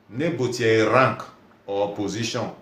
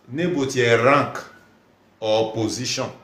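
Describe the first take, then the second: No difference in how they are said.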